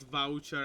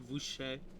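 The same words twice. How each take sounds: First: It is said with an American English pronunciation. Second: It is said with a French-style pronunciation. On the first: "as in in the American English way" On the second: "in the French way"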